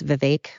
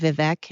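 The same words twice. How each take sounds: First: The last syllable rhymes with cake. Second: The last syllable does not rhyme with cake. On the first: The speaker calls it right. "apparently it's Vivek, like cake" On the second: The speaker calls it wrong. "I've been saying Vivek"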